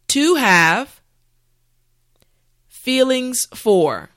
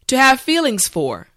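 First: The phrase is said slowly. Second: The phrase is said at normal speed. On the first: "repeat after me" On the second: "now let's say it at a normal pace"

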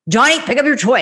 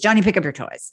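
First: It is said louder, almost shouting. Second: It is said at a normal, softer volume.

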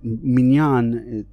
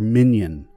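First: It is said with the Hebrew pronunciation. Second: It is said with the Ashkenazi pronunciation. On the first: "obviously is the Hebrew pronunciation"

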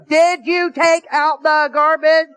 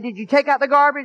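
First: The question is said loudest of all. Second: The question is said at a calm, soft volume.

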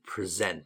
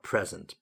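First: The stress is on the second syllable. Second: The stress is on the first syllable. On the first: It is used as a verb. The speaker calls it right. "it's a verb, so we pronounce it present" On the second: It is used as a noun. The speaker calls it wrong. "not present"

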